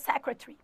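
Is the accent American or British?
British. It is said in a British accent.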